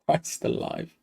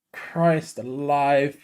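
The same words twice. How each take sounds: First: Breathless whisper of shock; real stunned whisper; whispered disbelief. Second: Drawn out, hushed disbelief; slow low mutter of shock; slow stunned murmur. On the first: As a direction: barely voice it, just air. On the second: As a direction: let it sink in slowly, under your breath. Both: Real, not acted. Stunned by the goal.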